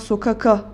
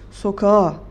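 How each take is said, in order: First: A clear k sound comes before the final vowel. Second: No k sound; the vowels run together softly. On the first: The speaker calls it wrong. "Biz buna sokaka demiyoruz" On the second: The speaker calls it right. "Sokağa diyoruz. Yumuşadı"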